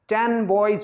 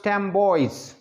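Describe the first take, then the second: First: The first word ends with an n sound. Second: The first word ends with an m sound. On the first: The speaker calls it wrong. "इसको कहना टेन boys ये awkward लगता है" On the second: The speaker calls it right. "टेन boys becomes टेम boys"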